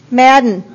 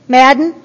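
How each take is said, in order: First: Said in the usual way. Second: Madden with a questioning rise at the end; calling again, rising. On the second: Real, not acted.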